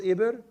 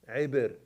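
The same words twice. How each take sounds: First: Said in the usual way. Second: Eber opened with an ayn, like in Arabic; Hebrew pronunciation. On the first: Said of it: "you know how they pronounce Eber". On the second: Shown as a demonstration. Teacher showing the class how Hebrews say it, Eber with an initial ayn. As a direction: say Eber the Hebrew way, from the throat on the first vowel. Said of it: "they have a little bit of a ayn".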